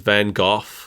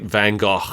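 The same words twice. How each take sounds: First: It is said with a non-American pronunciation. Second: It is said as an in-between compromise pronunciation. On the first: "Over here, we were taught that it was" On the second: "the truth is somewhere in between those"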